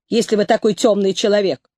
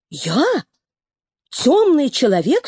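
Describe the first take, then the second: First: Said in the usual way. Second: Outraged question; indignant cry. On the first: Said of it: "the vet says it". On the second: A narrator's reading. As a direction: cry out in disbelief. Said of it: "вскричал серый".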